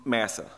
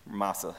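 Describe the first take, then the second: First: "Massa" with short a as in mass; first pronunciation attempt. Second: "Massa" with broad ah; alternative pronunciation. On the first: Preacher unsure of a place name, "Massa" rhyming with passa. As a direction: try "Massa" with a flat cat vowel. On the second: Preacher correcting a place name, "Massa" as soft MAH-sa. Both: Shown as a demonstration. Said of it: "however you say the word".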